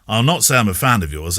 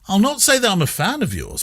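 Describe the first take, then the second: First: It is said in a dismissive, grudging tone. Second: It is said in a sincere, admiring tone. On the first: The speaker dislikes the listener. "as in, you really get my goat" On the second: The speaker admires the listener without gushing. "he doesn't mean it that way. It's all in the intonation"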